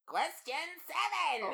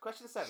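First: It is said in a Skeletor impression. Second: It is said in his normal voice.

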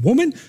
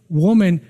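First: The word is said in a harsh, dismissive tone. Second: The word is said in a warm, tender tone. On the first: It is said with disrespect. The speaker calls it wrong. "It wasn't like he was saying woman" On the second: It is said with affection and respect. The speaker calls it right. "he was saying woman, and it meant difference"

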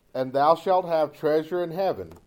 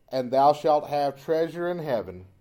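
The two takes are said the same way.

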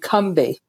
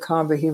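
First: The name is said with two syllables. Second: The name is said with three syllables. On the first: The speaker calls it right. "as if it's two syllables with no A in the middle" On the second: The speaker calls it wrong. "we've been pronouncing it incorrectly all these decades"

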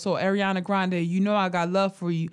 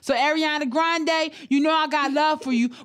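First: It is read in the speaker's own normal voice. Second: It is read in an imitated put-on voice.

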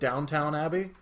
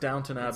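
First: The second syllable sounds like the word town. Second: The second syllable is a reduced, short tun. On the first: The speaker calls it wrong. "Do you pronounce it Downtown Abbey?" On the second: The speaker calls it right. "No, it's Downton. Pronounced Downton Abbey"

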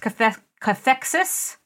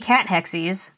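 First: It is said as one word, 'cathexis'. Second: It is said as 'cat' plus 'hexies'. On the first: The speaker calls it right. "I listened to it online. It's cathexis" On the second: The speaker calls it wrong. "I really thought it was going to be cat hexies"

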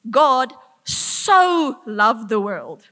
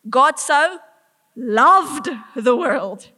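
First: The stress is on 'so'. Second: The stress is on 'loved'. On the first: He loved it to a great extent. "to this extent" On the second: It was real love, not mild liking. "Not mildly kind of enjoy, loves"

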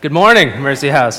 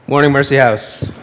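First: It is said with lively excitement. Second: It is said flatly, with little excitement.

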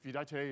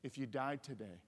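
First: The phrase is spoken quickly, rushed together. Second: The phrase is spoken slowly and deliberately. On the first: The listener may not catch the question. The speaker calls it wrong. "don't say it like this" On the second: The listener can take in the question. The speaker calls it right. "So slow down"

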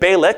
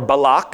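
First: The name is said the anglicized way. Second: The name is said the original way.

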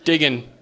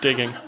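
First: It is said in a Buffalo accent. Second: It is said in a neutral accent. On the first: "I'm going to read it in Buffalonian, because I'm from Buffalo" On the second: "Just kidding"

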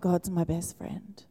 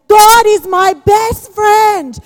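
First: It is said flatly, without feeling. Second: It is said passionately, with strong feeling.

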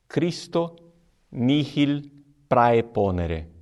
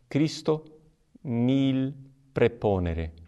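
First: Praeponere begins with an 'ai' diphthong sound. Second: Praeponere begins with a plain 'e' sound. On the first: This is the reconstructed classical pronunciation. The speaker calls it wrong. "A pronúncia reconstituída, que seria aquela de Cícero" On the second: This is the Roman ecclesiastical pronunciation. The speaker calls it right. "A pronúncia correta, romana"

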